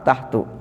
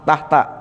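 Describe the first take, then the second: First: The word ends without an 'a' vowel. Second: The word ends with an 'a' vowel. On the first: The speaker calls it wrong. "Enggak dibaca" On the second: The speaker calls it right. "dibaca apa? Fat, fathah"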